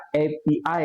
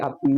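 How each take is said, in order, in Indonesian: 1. Dieja sebagai tiga huruf terpisah. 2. Diucapkan sebagai satu kata, api. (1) "tapi dibaca A P I ya" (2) "bukan A P I A P I yang korek itu ya"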